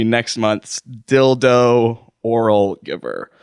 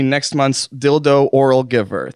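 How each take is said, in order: First: Slow, deliberate restatement of the title; emphatic reiteration. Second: Said in the usual way. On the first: Real, not acted. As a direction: draw out each word to reiterate it. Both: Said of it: "Just to reiterate one more time".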